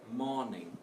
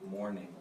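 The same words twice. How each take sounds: First: It is said with a weak R sound. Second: It is said with a strong R sound.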